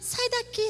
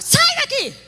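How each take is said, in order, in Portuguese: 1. O comando soa fraco e tímido. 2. O comando soa firme e autoritário. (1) "a gente não pode falar assim" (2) "É assim que a gente luta com a autoridade"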